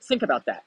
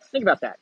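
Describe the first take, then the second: First: Said in the usual way. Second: "Think" hit higher and louder on the repeat; emphatic repeat. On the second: Real, not acted. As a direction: punch "Think" up high and loud.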